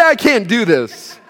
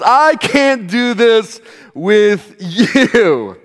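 First: "I can't do this" in one run, stopping at "this"; high, loud mock quote without the final "with you"; no stress on "you". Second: Slow and loud, "you" stretched out and set apart; high, emphatic retold line, hammer the final "you"; stress on YOU. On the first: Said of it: "She didn't say". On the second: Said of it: "the emphasis was". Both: Shown as a demonstration.

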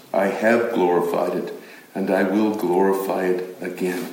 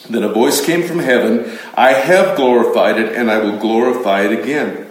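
First: Much lower and softer, the heavenly voice; low solemn heavenly voice; deep voice from heaven. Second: Said in the usual way. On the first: Shown as a demonstration. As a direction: let the voice from heaven rumble low and hushed. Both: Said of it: "I just put that down twice".

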